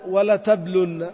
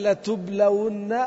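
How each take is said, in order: First: Said in the usual way. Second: Slow demo. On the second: Shown as a demonstration. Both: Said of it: "ما الفرق بين".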